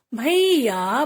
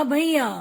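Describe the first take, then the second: First: "भैया" split as भई-या; teacher's drawn-out "भैया"; sounding out. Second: Said in the usual way. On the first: Shown as a demonstration. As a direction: stretch both syllables of "भैया". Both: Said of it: "कुछ ए के शब्द भी हैं".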